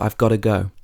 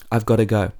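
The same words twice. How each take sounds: First: Got to is said as two full words. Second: Got to is shortened to gotta. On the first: "When we say got to" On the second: "we might say gotta"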